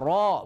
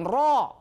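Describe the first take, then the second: First: It is said smoothly without a glottal stop. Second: It is said with a glottal stop inside. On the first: The speaker calls it right. "Dibaca ro" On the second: The speaker calls it wrong. "bukan ro"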